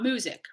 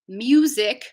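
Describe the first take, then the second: First: There is no y sound after the m. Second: A y sound follows the m. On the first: The speaker calls it wrong. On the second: The speaker calls it right. "will be with the yod"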